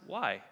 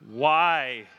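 First: It is said in a curious, questioning tone. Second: It is said in a rude, defiant tone. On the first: The child genuinely wants to understand. The speaker calls it right. "they're inquisitive" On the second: The child is defying the parent. The speaker calls it wrong. "That's disrespectful. The tone means something"

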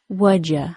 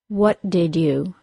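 First: The words blend into a short contracted form. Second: Each word is said fully and separately. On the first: "then as a contraction"

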